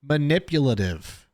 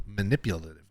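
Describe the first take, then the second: First: "manipulative" said slowly, every syllable placed; careful retry. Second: "manipulative" tripped over and softly tailing off; stumbled word. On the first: Podcaster retrying a hard word, "manipulative" slow and careful. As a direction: take "manipulative" slowly and deliberately to get it out. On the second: Podcaster struggling with a hard word, "manipulative" fumbled and quiet. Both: Real, not acted. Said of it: "that's such a hard word for me".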